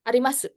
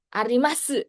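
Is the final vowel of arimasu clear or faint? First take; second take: faint; clear. First: The final u is faint, barely voiced. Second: The final u is clearly pronounced. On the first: The speaker calls it right. "di bagian akhir mulutnya langsung ketutup" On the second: The speaker calls it wrong. "kalau dibaca su gitu, itu kayak ngasih tekanan"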